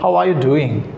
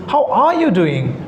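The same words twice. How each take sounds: First: The question is said in an unsurprised way. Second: The question is said in a surprised way. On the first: "if they are not surprised" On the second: "if they are surprised"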